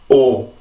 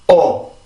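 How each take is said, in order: First: The vowel flows out with relaxed vocal folds. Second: The vowel starts with a sudden vocal-fold tensing. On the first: This is how Korean makes the vowel. "성대가 이렇게 긴장이 되지 않고 그냥 쭉 올라오는 건 한국어인 오" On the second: This is how English makes a stressed vowel. "영어는 어, 어, 어, 어 이렇게 한번 긴장을 해줘요"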